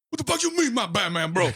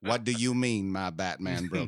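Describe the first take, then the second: First: Loud, high, frantic outburst; freaked-out yell. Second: A hint of a cranky old man; lightly voiced grumpy old man; Uncle Ruckus voice. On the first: Retold or imitated. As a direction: yell it in total panic. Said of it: "I freaked the fuck out". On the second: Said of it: "I turn into Uncle Ruckus".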